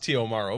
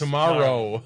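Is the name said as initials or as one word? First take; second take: initials; one word. First: The letters T and O are spelled out. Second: It is said as the single word tomorrow. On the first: The name is written with initials. "it is T.O. Morrow" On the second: The name hides the word tomorrow. "but it's Tomorrow"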